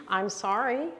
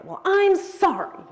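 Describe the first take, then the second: First: Said in the usual way. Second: Much higher, louder, slower, snippy sorry; sarcastic apology. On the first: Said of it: "So nonverbal and tone of voice". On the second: Shown as a demonstration. Showing the women how tone of voice twists an apology, sarcastic. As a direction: make the sorry sound like it isn't one. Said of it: "does that have the same meaning?".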